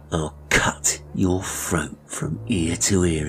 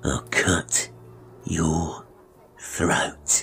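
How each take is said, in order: First: Slow, fully voiced villain's menace; menacing threat. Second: Halting, sinister whisper; whispered threat. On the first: Barber warning the boy to keep silent, menacing. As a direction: spell out the threat deliberately. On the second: Acted. Barber repeating his warning to the boy, menacing whisper. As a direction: whisper it word by word, with long pauses.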